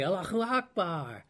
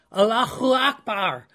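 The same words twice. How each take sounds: First: Soft, glad "Allahu Akbar" like thanks for a gift; a quiet, happy "Allahu Akbar" of thanks; joyful Allahu Akbar. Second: "Allahu Akbar" shouted higher and louder like a war cry; rally troops with "Allahu Akbar"; a rousing, raised battle-cry "Allahu Akbar". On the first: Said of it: "used as an expression of joy". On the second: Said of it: "used it as a battle cry". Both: Retold or imitated.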